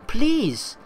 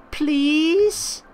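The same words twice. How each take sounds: First: Said in the usual way. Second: Please? pitched high with a long begging rise; pleading please. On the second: Acted. Begging her companion to help the boy, a high rising Please?. Pleading with Retona to hire Sol.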